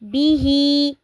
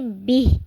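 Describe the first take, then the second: First: The word ends with a long vowel. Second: The word ends on a consonant.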